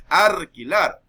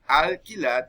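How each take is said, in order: First: "arquilar" with an R where the L goes, slowly and loudly; loud, slow "arquilar", R replacing the L; montuvio R for L. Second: Said in the usual way. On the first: Shown as a demonstration. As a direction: say "arquilar", turning the L into R. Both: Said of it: "en vez de decir alquilar".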